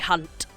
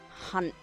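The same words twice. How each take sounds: First: The final T is crisp and fully released. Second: The final T is softened, almost not released. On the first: The speaker is being mean to someone. "Hard T" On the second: It is friendly, a term of endearment. "soft tea, like we do in bottle of water"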